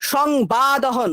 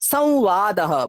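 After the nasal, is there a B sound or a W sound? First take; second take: B; W. First: A B sound follows the nasal. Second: A W-like sound follows the nasal. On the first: The speaker calls it wrong. "সংবাদः নয়" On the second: The speaker calls it right. "আউ করে একটা উচ্চারণ হয়"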